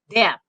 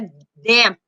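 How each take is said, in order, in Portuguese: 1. O P final é formado, mas quase inaudível. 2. O P final é liberado com uma explosão forte. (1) "Você falou o P, mas não sai som forte" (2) "não sai forte o P, não é damp"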